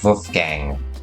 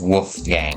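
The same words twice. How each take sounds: First: It starts with a German-style V sound. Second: It starts with an English W sound.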